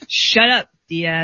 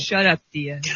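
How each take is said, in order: First: It is said with strong, forceful fervor. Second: It is said plainly, with little force.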